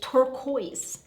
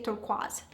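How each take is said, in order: First: It is said with an American pronunciation. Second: It is said with a Maltese pronunciation. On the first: "as the Americans say it" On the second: "In Malta we say"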